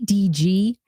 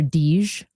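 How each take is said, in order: First: The name is spoken as two separate letters. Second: The name is spoken as one single syllable. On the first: "I said your name right" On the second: "because I was calling her Deej"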